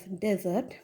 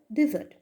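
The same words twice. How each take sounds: First: ডেজার্ট pronounced DEH-zart; first-syllable "de". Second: ডেজার্ট pronounced di-ZART; first-syllable "di". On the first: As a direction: open ডেজার্ট with a clear "de". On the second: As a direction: open ডেজার্ট with "di", not "de". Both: Shown as a demonstration. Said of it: "pronounce করবো as".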